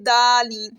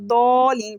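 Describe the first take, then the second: First: The first consonant is light, like a plain d. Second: The first consonant is heavy, with a full mouth. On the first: The speaker calls it wrong. "अब हम इसको ऐसे नहीं पढ़ेंगे दालीन" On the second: The speaker calls it right. "दौलीन पढ़ना है"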